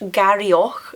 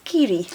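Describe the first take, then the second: First: The name ends with an 'och' sound. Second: The name ends with an 'ee' sound. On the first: The speaker calls it wrong. "that's not Garrioch" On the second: The speaker calls it right. "it's Geary"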